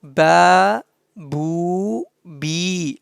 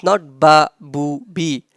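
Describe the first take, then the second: First: Ba, bu, bi with the vowels drawn out long; stretched vowels. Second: Ba, bu, bi clipped short with no stretch; short vowels, wrong way. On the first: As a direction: prolong each vowel like a madda letter. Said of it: "So you have to prolong it". (مدّ الحركات: با، بو، بي) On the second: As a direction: say them quick and short to show the mistake. (حركات قصيرة: بَ، بُ، بِ) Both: Shown as a demonstration.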